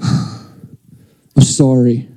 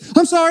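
First: It is said grudgingly, with a sigh. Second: It is said condescendingly, repeated quickly.

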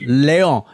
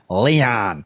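First: The name is said with a French pronunciation. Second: The name is said with an English pronunciation. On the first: The speaker calls it right. "He's French. How? And it's pronounced Leon" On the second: The speaker calls it wrong. "not Leon"

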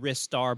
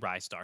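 First: The first syllable has a short 'riss' vowel. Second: The first syllable has a long 'rye' vowel. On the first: It follows the spelling of the name. "grammatically, it should be Rystar" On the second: It echoes the name of a similar game. "it should thematically be Rystar"

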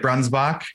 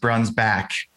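First: The name ends with a hard k sound. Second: The name ends with a soft ch sound. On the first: "I say it Brunsbach" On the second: "My dad says Brunsbach"

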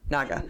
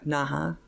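First: The middle consonant is a G sound. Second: The middle consonant is an H sound. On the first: The speaker calls it right. "It's Naga" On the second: The speaker calls it wrong. "so then I pronounced it like an H"

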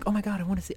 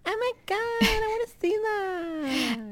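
First: It is said in his normal voice. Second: It is said in a put-on girlfriend voice.

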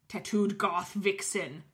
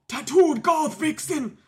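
First: It is said at normal speaking volume. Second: It is said in a loud stage yell.

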